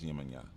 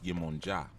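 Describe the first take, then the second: First: The last syllable starts with a y sound. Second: The last syllable starts with a j sound. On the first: This is the Spanish form of the name. The speaker calls it wrong. "That's Spanish" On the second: This is the original form of the name. The speaker calls it right. "It's Yemonja"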